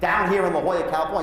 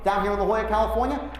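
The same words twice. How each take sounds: First: It is said flatly, without warmth. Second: It is said in a friendly, upbeat way.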